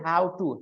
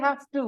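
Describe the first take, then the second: First: The first word is said like 'how'. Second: The first word is said like 'have'. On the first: The speaker calls it wrong. "He says how to, This is how he pronounces it. So wrong" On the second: The speaker calls it right. "which is the right pronunciation"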